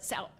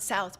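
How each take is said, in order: First: The word ends in a glottal stop. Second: The word ends without a glottal stop. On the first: "but south, and that's that glottal stop" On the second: "not south"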